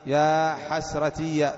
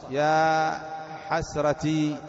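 First: "حسرتي" slowly said as ḥasratiya; final voiced ya. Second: "حسرتي" drawn out to a long ī; long final ī. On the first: Teacher runs through the forms for students, slow -iya ending on "حسرتي". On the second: Teacher runs through the forms for students, long ī on "حسرتي". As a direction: say "حسرتي" as ḥasratī, stretching the last vowel. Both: Shown as a demonstration. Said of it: "تقدر نطبق عليها اللغات".

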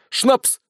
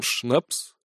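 First: High, emphatic cry; insistent exclamation. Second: Puzzled. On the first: Sergeant answers the puzzled tavern keeper, insistent. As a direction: hurl the word back as a demand. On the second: Tavern keeper has never heard of schnapps, puzzled. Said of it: "удивился тавернье". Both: A narrator's reading.

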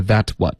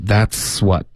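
First: "that what" with the S dropped after that; faulty "that what", T straight into W; wrong, missing S. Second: "That's what" with a clear hissed S before what; audible S link. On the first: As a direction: mimic the mistake, no S in "that what". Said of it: "不是that what". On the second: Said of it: "应该有一个嘶的音". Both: Shown as a demonstration.

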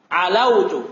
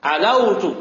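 No difference in how they are said.

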